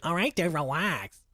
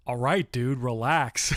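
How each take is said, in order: First: Hammed-up cocky fifteen-year-old, higher; sassy teen. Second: Lightly sassy, casual brush-off; ballsy teen retort. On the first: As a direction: play the cheeky teenager brushing him off. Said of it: "fifteen-year-old Kiko". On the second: Retold or imitated. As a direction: toss it off like a cocky teen. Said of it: "something as ballsy as".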